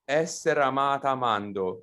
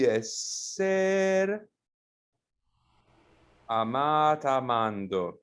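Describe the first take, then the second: First: Essere is stressed on its first syllable. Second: Essere's stress moves away from its first syllable. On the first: "it could be essere amata amando" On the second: "the stress of the word uh, moves"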